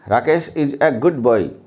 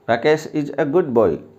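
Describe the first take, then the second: No difference in how they are said.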